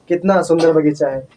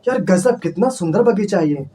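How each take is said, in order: First: It is said flatly, without emotion. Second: It is said with excited emotion.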